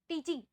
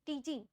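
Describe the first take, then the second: Both takes have the same delivery.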